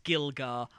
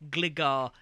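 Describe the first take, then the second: First: The word begins with a 'gil' sound. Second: The word begins with a 'gli' sound. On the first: The speaker calls it wrong. "as Gilgar, and I can't help it" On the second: The speaker calls it right. "I also mispronounce Gligar"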